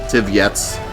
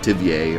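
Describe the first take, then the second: First: The name is said with an English pronunciation. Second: The name is said with a French pronunciation. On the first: "however you pronounce it" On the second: "the French pronunciation"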